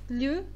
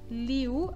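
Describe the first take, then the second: First: The I glides very quickly into one vowel. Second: An I sound is clearly heard before the U. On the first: The speaker calls it right. "Este I é muito rápido" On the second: The speaker calls it wrong. "vocês não podem marcar este I, liu, assim está errado"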